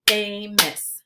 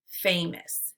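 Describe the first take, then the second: First: "Famous" as two separate beats, Fa – mous; syllables split apart. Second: Said in the usual way. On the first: Shown as a demonstration. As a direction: say "Famous" syllable by syllable, pausing between. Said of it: "give you the parts of the syllable". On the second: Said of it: "blend it together".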